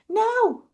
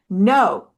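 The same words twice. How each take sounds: First: It is said quietly and without force. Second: It is said loudly and with force. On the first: The speaker calls it wrong. "they were all going" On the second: The speaker calls it right. "we have them say it with force and loudness"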